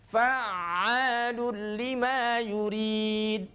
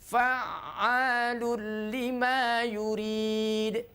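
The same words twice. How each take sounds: No difference in how they are said.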